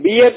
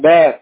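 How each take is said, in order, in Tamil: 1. உயிரெழுத்து 'ear' மாதிரி ஒலிக்கிறது. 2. உயிரெழுத்து 'air' மாதிரி ஒலிக்கிறது. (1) "பியர் சொல்லக்கூடாது" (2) "பேர் BEAR சரிங்களா"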